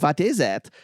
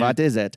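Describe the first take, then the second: First: It is said in a put-on, campy voice. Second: It is said in a plain, normal voice.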